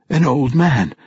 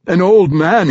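First: Said in the usual way. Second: Put-on "An old man," much higher and louder, stressing "old"; insist, hitting "old"; insistent. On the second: A narrator's reading. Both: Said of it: "he insisted".

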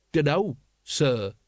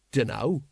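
First: Slow grudging respect; dragging out a cowed polite answer; corrected politely. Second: Said in the usual way. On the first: A narrator's reading. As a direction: add the sir slowly and carefully. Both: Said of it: "he corrected".

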